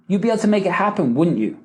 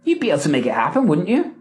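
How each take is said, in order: First: WOULDN'T YOU falling at the end; quick line, dropping YOU as a command; command tag. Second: WOULDN'T YOU rising at the end; quick line, lifting YOU into a question; question tag. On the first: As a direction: tell them, downward on WOULDN'T YOU. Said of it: "a command". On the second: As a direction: ask for agreement, upward on WOULDN'T YOU. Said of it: "Do you see the difference". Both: Shown as a demonstration.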